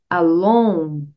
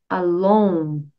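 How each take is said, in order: No difference in how they are said.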